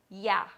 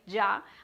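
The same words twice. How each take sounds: First: The word starts with the most widespread Y sound. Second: The word starts with a Medellín-style Y sound. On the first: "the most common pronunciation of the word would be ya" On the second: "Ya is the one that I say because I am from Medellin"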